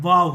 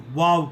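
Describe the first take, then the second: First: वाव said as V-A-W; वाव with an English V; V pronunciation. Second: वाव said like English "wow"; W pronunciation. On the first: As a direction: lip on teeth to start वाव. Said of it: "अंग्रेज़ी का वी". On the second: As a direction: round the lips to start वाव. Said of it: "अंग्रेज़ी में डब्ल्यू ओ". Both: Shown as a demonstration.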